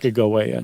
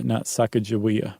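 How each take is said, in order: First: "Sacagawea" with a hard G, sacka-guh-WAY-uh; hard G pronunciation. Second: "Sacagawea" with a J sound, sacka-juh-WEE-uh; soft G pronunciation. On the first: Host explaining the journals, "Sacagawea" with a hard G. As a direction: say guh, not juh, in "Sacagawea". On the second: Host giving the rejected form, "Sacagawea" with a J sound. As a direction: say juh in place of guh in "Sacagawea". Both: Shown as a demonstration. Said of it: "it was a hard G".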